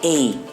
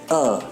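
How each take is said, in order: First: The vowel is a full, long ay sound. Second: The vowel is a short, reduced uh sound. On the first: The speaker calls it wrong. "not a" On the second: The speaker calls it right. "it's pronounced as a"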